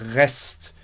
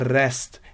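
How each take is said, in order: First: The R comes from deep in the throat. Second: The R is not made in the throat. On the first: "aqui novamente nós temos o som do re" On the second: "você não precisa se sentir mal se você falar rest"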